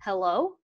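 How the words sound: It sounds puzzled and questioning.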